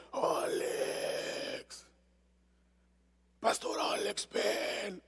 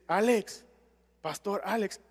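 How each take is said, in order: First: Ghostly voiceless whisper calling a name; a faint, voiceless, otherworldly call; eerie demon whisper. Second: Said in the usual way. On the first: Retold or imitated. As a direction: breathe it like a spirit luring you in. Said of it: "yo escuché una voz que decía".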